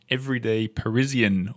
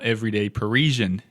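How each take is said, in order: First: It is said in a non-American accent. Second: It is said in an American accent.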